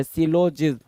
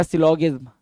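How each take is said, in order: First: सिलोजिज्म said with a j sound before "izm"; soft g variant. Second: सिलोगिज्म said with a hard g before "izm"; hard g variant. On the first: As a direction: end सिलोजिज्म in "jizm", not "gizm". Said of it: "कुछ लोग सिलोजिज्म भी बोलते हैं". (सिलोजिज्म, 'ज' वाला उच्चारण) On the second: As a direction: end सिलोगिज्म in "gizm", not "jizm". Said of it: "सिलोगिज्म भी कुछ लोग बोलते हैं". (सिलोगिज्म, 'ग' वाला उच्चारण) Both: Shown as a demonstration.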